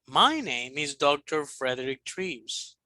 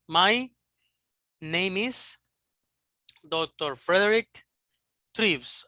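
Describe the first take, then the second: First: It is read smoothly with natural intonation. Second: It is read haltingly with flat intonation. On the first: The speaker calls it right. "for example" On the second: The speaker calls it wrong. "No fluency, no fluency"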